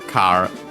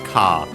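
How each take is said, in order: First: It is said as the English word. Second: It is said as a Japanese long ka. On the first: "the typical example I always make is uh, car" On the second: "which becomes ka"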